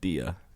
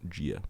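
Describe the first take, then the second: First: It begins with a plain hard D sound. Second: It begins with a soft J-like sound. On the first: The speaker calls it wrong. "you're not gonna say like dia" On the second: The speaker calls it right. "it's a bit of a, like a G"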